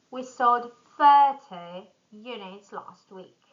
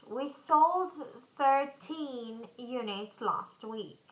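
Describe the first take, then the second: First: "thirty" louder on THIR; stress on thir. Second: Put-on "thirteen" slow, with TEEN stressed. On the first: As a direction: punch the start of "thirty". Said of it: "stress on the beginning". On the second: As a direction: hit the end of "thirteen". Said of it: "stress on the end". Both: Shown as a demonstration.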